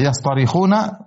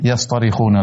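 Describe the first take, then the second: First: Yastarikhuna with a light, plain t and open 'a', yas-ta-ri-khu-na; original light ta. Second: Yastarikhuna with a heavy Arabic ṭ, yas-ṭo-ri-khu-na; heavy emphatic tha. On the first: Teacher shows the verb before the letter change, Yastarikhuna with light ta. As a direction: say Yastarikhuna slowly with an unemphatic Arabic ta. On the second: Teacher shows the changed letter, yastarikhuna with heavy emphatic ṭa. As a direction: darken the ta in yastarikhuna towards 'tho'. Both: Shown as a demonstration. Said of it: "kemudian ta dirubah menjadi ta".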